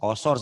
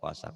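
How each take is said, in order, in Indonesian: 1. Vokalnya terdengar tebal dan membulat. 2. Vokalnya terdengar tipis dan terbuka.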